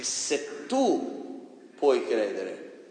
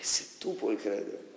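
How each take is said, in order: First: "se tu puoi credere" stretched very slowly, word by word; drawn out. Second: Whispered. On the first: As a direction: draw out "se tu puoi credere" to drive it home. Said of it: "correcting the quote again". (molto lento e scandito) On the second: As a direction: whisper it, slow and intimate. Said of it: "correcting the quote". (sussurrato lentamente) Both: Shown as a demonstration.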